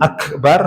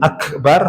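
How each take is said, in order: First: The k is bounced with a little echo. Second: The same.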